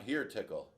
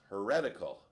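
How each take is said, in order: First: It is said as two words, 'here tickle'. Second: It is said as one word, 'heretical'. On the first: The speaker calls it wrong. "It's not here tickle" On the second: The speaker calls it right. "It should be pronounced heretical"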